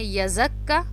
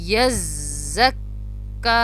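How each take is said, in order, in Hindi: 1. z और k छोटे बोले जाते हैं, खींचे नहीं। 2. z और k दोहरे हैं और दृढ़ता से बोले जाते हैं। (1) "अक्सर इसको लोग अदा करते हैं ... तो वो दोनों तरीक़ों से जो है वो गलत होगा" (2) "दोनों को सख्ती से पढ़ना है और दोनों पे रुकना है"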